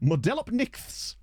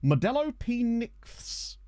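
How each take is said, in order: First: The name is said at normal speed. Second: The name is said slowly, part by part. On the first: "I'm sure I've said that incorrectly" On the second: "Let me try to slow that down"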